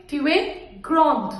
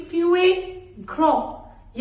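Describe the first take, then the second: First: "grand" with a sounded final consonant; feminine pronunciation. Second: "grand" with silent d after "To a"; masculine pronunciation. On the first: Teacher showing how to address a girl, "grand" with final d. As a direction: close "grand" on its d, falling. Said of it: "अगर लड़की है". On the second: Teacher showing how to address a male, "grand" without final d. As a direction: end "grand" on a nasal vowel. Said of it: "तो मैं कैसे बोलूंगी". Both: Shown as a demonstration.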